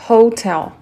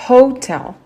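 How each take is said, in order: No difference in how they are said.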